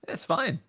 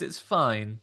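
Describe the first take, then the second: First: It is said in a warm, approving tone. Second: It is said in a grudging, unenthusiastic tone. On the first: The thing is slightly better than acceptable. "a B minus is it's fine, it's good" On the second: The thing is barely acceptable. "a C minus is it's fine"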